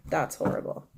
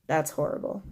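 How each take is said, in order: First: Breathy whisper of dismay; hushed, appalled whisper. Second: Said in the usual way. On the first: Real, not acted. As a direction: whisper it like it's too awful to say aloud. Repeated reaction, whispered.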